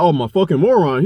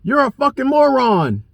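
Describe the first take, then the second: First: Said in the usual way. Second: High, slowed sneer of the insult; mocking the other driver. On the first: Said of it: "I was like". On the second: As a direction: spit the insult pitched high and slow. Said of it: "he comes around".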